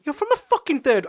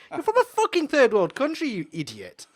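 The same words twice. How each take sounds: First: High, loud swearing blast; retold shouting. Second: High, loud swearing, dropping off at the end; retold shouting. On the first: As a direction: yell it at him much higher. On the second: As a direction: hurl the insult, then spit the last word. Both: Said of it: "I started swearing and everything".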